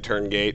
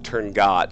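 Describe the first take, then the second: First: The last syllable sounds like 'gate'. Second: The last syllable sounds like 'got'. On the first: It follows how the word looks in writing. "I will say it how it looks to me" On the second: It copies how the recording said it. "he pronounced it Turngot"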